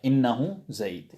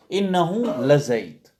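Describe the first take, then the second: First: Innahu Zayd said slow and even, light weight on Innahu; steady, unhurried statement with a light stress on Innahu; calm measured Arabic phrase; mild emphasis. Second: Innahu la Zayd said slow, with extra weight on la; emphatic Arabic, stressed la; strong emphasis. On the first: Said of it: "it's just a bit of emphasis there". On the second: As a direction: lean into la Zayd to insist. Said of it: "Lam is just for emphasis again". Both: Shown as a demonstration.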